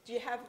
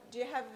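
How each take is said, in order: Both takes have the same delivery.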